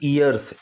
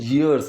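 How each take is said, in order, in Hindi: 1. शब्द सादे स्वर से शुरू होता है। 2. शब्द "y" ध्वनि से शुरू होता है। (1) "ना कि ईयर्स" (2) "प्रोनाउंसिएशन ईयर्स"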